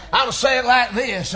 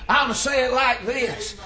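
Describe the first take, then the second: First: Said again, louder and firmer; louder repeat. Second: Said in the usual way. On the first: Shown as a demonstration. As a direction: repeat it with more force.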